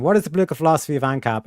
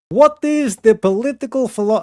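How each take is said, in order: First: Said in the usual way. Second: Higher, louder put-on accent on "What is the political philo-". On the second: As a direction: start the question in a hammed-up mock accent. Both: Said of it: "okay, I won't do an accent".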